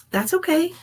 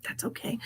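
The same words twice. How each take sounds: First: Said in the usual way. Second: Whispered. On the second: Real, not acted. Repeats reassurance under breath.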